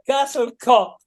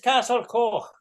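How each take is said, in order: First: The last word ends in a plain k sound. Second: The last word ends in a raspy throat sound. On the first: The speaker calls it wrong. "It's not cocked" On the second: The speaker calls it right. "but it's Castle Coch"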